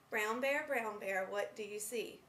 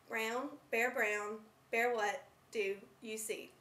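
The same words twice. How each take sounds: First: It flows smoothly with pauses between phrases. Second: It is choppy with pauses in odd places. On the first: The speaker calls it right. "A fluent reader would read a passage from Bill Martin's book as" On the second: The speaker calls it wrong. "A non-fluent reader may read the same passage in the following manner"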